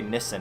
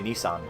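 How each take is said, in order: First: The last syllable sounds like 'sen'. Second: The last syllable sounds like 'sahn'. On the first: This is how people over there say it. "they say Nissen over there" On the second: This is how people here say it. "we say Nissan"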